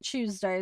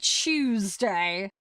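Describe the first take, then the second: First: The word begins with a clear t sound. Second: The word begins with a ch sound. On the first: The speaker calls it right. "Tuesday is how we would say it" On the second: The speaker calls it wrong. "We don't we don't say Tuesday. We're not chewing the day"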